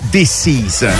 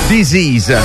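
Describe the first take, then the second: First: It sounds like the English words 'this is'. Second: It sounds like the English word 'disease'. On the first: It would mean 'this is'. The speaker calls it wrong. "non Disease, che sarebbe questo è" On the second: It means illness. The speaker calls it right. "ma Disease, malattia"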